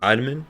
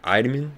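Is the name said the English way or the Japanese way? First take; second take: Japanese; Japanese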